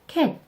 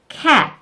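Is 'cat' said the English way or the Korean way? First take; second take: Korean; English. First: It is said with a Korean-style k and vowel. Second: It starts with a strong, voiceless English k sound. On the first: The speaker calls it wrong. "한국어에서는 cat, cat 이렇게 발음하는데" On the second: The speaker calls it right. "입을 양쪽으로 벌린 상태에서 크 라는 무성음 소리를 내시면 됩니다"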